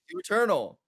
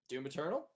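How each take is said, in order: First: The voice falls at the end. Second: The voice rises at the end.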